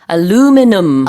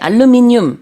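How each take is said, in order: First: The word is said with four syllables. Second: The word is said with five syllables. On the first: This is the American form. "미국에서는 aluminum" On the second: This is the British form. "영국에서는 한국과 똑같이 알루미늄"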